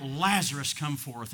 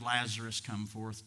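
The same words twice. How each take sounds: First: Brief mock call, punched on the name; lightly acted summoning cry; imitated cry out. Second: Said in the usual way. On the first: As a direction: call out the name, then drop back. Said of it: "And Jesus cried out". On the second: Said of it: "the reason he shouted".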